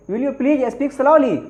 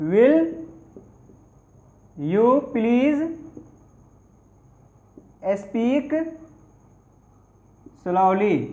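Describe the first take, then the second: First: Said in the usual way. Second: "Will", "you please", "speak", "slowly" said with long pauses between; word by word. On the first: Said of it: "भैया थोड़ा धीरे से बोलोगे". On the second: Shown as a demonstration. Teacher dictating to students, slow word by word. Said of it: "क्या कहिएगा?".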